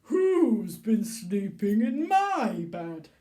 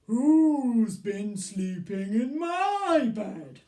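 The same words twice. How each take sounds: First: Big loud slow bear voice; booming Daddy Bear demo; Daddy Bear for the class to copy. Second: Big loud slow bear voice; booming Daddy Bear. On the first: Shown as a demonstration. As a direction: boom it for the children to repeat. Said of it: "we can go". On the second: Acted. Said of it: "What question does Daddy Bear ask".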